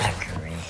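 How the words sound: It is said in a gruff Hulk voice.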